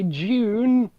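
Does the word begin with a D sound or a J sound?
J sound. The word begins with a J-like sound. "British people pronounce the D as a J"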